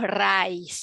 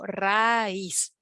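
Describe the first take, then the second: First: The two vowels merge into one syllable. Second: The two vowels fall in separate syllables. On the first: The speaker calls it wrong. "no decimos raíz" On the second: The speaker calls it right. "Separamos dos sílabas"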